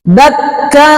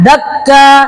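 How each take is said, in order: First: The doubled k is held before the vowel. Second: The doubled k is cut short, not held. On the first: The speaker calls it right. "seperti itu tahannya" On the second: The speaker calls it wrong.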